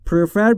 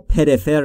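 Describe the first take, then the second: First: The p and r join with no vowel. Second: A vowel is inserted between p and r. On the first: The speaker calls it right. "بین پی و آر صدایی وجود نداره" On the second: The speaker calls it wrong. "پریفر یا پرفر نگفتم"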